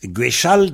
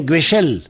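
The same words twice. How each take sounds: First: "Guéchal" with sh and an open final -al; original a vowel. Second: "Guéchel" with sh and final -el; change the last vowel of "Guéchel" to è; a turned to è. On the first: Teacher giving the base form, "Guéchal" with final -al. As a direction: keep the last vowel of "Guéchal" as a. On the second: Teacher showing the vowel shift, "Guéchel" with final -el. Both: Shown as a demonstration. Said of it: "le A devient E souvent".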